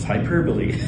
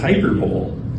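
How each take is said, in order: First: The word ends with a 'bo-lee' sound. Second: The word ends like 'bowl', without a final vowel. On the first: The speaker calls it right. "it's hyperbole" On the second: The speaker calls it wrong. "some might pronounce it as hyperbole, but that's not it"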